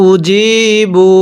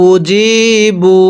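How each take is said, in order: No difference in how they are said.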